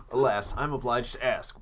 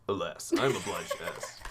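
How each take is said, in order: First: Lightly voiced prim owl; a touch of a formal old curator; Blathers voice. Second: Laughing retake. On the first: The owl asking the player in game, lightly put-on formality. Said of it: "it's a Blathers voice". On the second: Pretend. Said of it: "Oh, it's not the".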